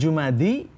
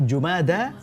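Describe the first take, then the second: First: The word ends with an "ee" sound. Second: The word ends with an "ah" sound. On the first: The speaker calls it wrong. "Bukan Jumadi" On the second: The speaker calls it right. "pengucapannya yang benar adalah Jumadal Ula"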